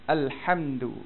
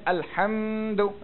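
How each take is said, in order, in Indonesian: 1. Vokal dalam hamdu pendek dan cepat. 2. Vokal dalam hamdu dipanjangkan. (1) "Kena cepat" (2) "dia telah memanjangkan hamdu. Tak kena"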